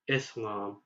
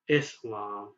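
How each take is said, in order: First: The middle consonant is a hissing s sound. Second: The middle consonant is a hissing s sound.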